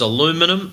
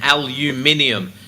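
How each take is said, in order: First: It has four syllables, ending in 'minum'. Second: It has five syllables, ending in 'minium'. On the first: "aluminum in the States" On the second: "aluminium in the UK"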